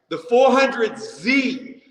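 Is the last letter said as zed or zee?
zee. The last letter is said as zee. This is how the speaker says it. The speaker calls it right.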